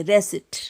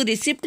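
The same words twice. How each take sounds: First: रेसिट said with no P sound; silent P. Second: रिसिप्ट with the P pronounced; quick mock wrong रिसिप्ट with a clear P; wrong way, P sounded. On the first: Teacher shows students the right way, silent P. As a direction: correct रेसिट, the P left silent. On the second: Teacher warns students against sounding the P. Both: Shown as a demonstration. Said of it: "इसको रिसिप्ट नहीं बोलेंगे".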